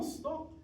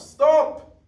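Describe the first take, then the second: First: The word is said softly, in a small voice. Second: The word is shouted loudly. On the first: The warning lacks urgency. The speaker calls it wrong. "you don't just with a small voice say" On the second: The warning is urgent. The speaker calls it right. "You shout"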